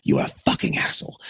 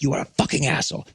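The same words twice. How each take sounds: First: Fast, rough unpitched put-on insult; imitated yelling Belgian. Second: Fast put-on accented insult, higher pitch; imitated yelling Belgian. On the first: Angry local man insists to the touring musician, imitated insult. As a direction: repeat it low and rasped in his voice. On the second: Angry local man to the touring musician, imitated insult. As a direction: spit it out quickly in his voice. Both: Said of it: "he was just like".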